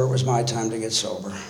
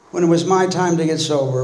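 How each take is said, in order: First: A soft settled echo with "it" weighted; quiet stress on it. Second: "my" pressed and held, falling tune at the end; stress on my. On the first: To the AA room, quietly confirming it was his time, stressing "it". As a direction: drop softer and lower, leaning on "it" in "it was my time to get sober.". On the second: Telling the AA room his turn had come, stressing "my". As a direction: lean on "my" in "When it was my time to get sober," then let it fall. Repeats line with shifted stress. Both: Real, not acted.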